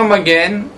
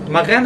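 First: The middle consonant is a hard stop g. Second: The middle consonant is a soft fricative gh. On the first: The speaker calls it wrong. "מי שאומר מגן הוא לא אמר כמו שצריך" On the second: The speaker calls it right. "ככה צריך לומר"

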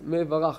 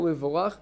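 First: The vowel after the m sounds like 'a'. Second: The vowel after the m sounds like 'o'. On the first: The speaker calls it right. "מורים את זה בקמץ" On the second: The speaker calls it wrong. "לא מבורך"

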